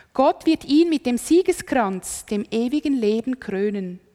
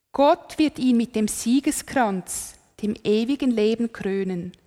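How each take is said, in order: The two takes are said the same way.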